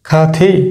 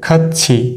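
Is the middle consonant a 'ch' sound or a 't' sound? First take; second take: t; ch. First: The middle consonant sounds like a 't'. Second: The middle consonant sounds like a 'ch'. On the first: The speaker calls it wrong. "খাথি না" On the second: The speaker calls it right. "এটার উচ্চারণ কিন্তু হবে খাচ্ছি"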